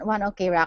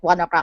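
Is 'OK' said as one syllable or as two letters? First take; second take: two letters; one syllable. First: OK is spoken as the two letters O-K. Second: OK blends into one syllable, like o'clock. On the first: This is how an English reader would read the name. "That when I read, so I was like, okay" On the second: This is how the fans and the band say the name. "everybody kept calling it"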